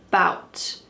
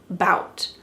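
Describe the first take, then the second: First: The first vowel is dropped entirely. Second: The first vowel is dropped entirely.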